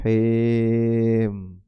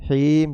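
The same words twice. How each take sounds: First: The vowel is an 'eh' sound. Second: The vowel is a clear 'ee' sound.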